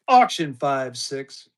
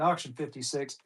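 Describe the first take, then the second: First: "five six" said slowly, digit by digit; slow, clear restatement. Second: Said in the usual way. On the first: Shown as a demonstration. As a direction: spell out "five six" slowly so bidders catch it.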